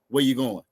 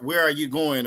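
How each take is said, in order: First: The shortened form is said, without the word 'are'. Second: The full form is said, with the word 'are'. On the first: It is the natural, everyday way of asking. "the way that we talk" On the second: It is the fuller, more formal way of asking. "they're going to add all that extra to it"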